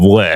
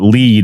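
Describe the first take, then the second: First: The vowel is short, sounding like 'led'. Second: The vowel is long, sounding like 'leed'. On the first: This is the intended reading of the band name. The speaker calls it right. "instead of lead" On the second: This is the feared misreading of the band name. The speaker calls it wrong. "people would call it lead"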